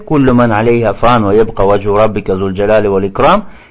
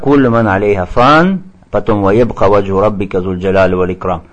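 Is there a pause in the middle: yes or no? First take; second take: no; yes. First: It is read straight through without a pause. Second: It is read with a pause in the middle.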